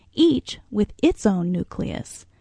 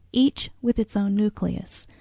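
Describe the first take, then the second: No difference in how they are said.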